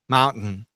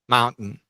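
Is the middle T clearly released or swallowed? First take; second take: swallowed; swallowed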